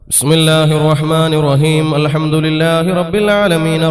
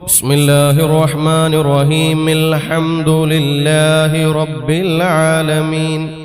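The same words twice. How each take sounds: First: Raheem ends on m before Alhamdu. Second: Raheem ends with an i vowel into Alhamdu. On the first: The speaker calls it wrong. "ഇവിടെ ഒരു വലിയൊരു തെറ്റ് സംഭവിച്ചിട്ടുണ്ട്" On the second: The speaker calls it right. "അപ്പൊ കൂട്ടിയോതുമ്പോ"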